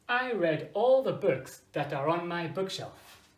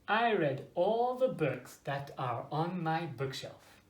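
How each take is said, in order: First: It is said at a fast pace. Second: It is said at a slower pace.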